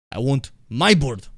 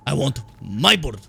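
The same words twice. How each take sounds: First: Ivan Vanko. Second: Slow, louder mock Russian accent; a deliberately bad Russian accent; fake Russian accent. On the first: Retold or imitated. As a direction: play Ivan Vanko's bad Russian accent. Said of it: "talking about how much he wants his bird". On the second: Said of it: "horrible dog shit fake Russian accent".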